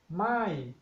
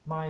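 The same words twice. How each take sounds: First: The pitch starts high and falls. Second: The pitch is held low throughout. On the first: It means no. "the falling tone my" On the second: It means new. "low tone my"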